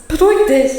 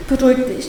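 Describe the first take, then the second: First: Higher, a bit louder, panicked; telling herself to calm down, panicked; frightened self-calming. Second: Firm, soothing companion voice; steady her through the panic; a friend calming her down. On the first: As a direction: urge yourself to calm down in fear. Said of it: "Ich darf meine Freundin nicht verletzen". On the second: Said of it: "dann hört es auf". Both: Acted.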